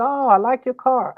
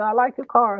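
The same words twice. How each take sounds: First: Deflecting daughter. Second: Deflecting daughter again. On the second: Daughter repeats compliment. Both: Retold or imitated.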